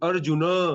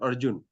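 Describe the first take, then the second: First: The name ends with a final vowel. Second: The name ends on a hard consonant. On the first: This is the Sanskrit form. The speaker calls it right. "So it's Arjuna" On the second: This is the Hindi form. The speaker calls it wrong. "not Arjun"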